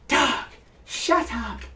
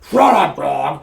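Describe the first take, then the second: First: It is said in a silky, smooth voice. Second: It is said in a gruff, monstrous voice.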